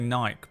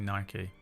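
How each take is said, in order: First: It is pronounced the British way. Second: It is pronounced the American way. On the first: This is how the speaker's own country says it. "We say Nike" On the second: This is how the speaker's own country does not say it. "We don't say Nike"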